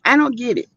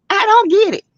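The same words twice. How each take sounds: First: Said in the usual way. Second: High-pitched exclamation, baffled. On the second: Real, not acted. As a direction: cry out in disbelief. Exasperated over YouTube drama.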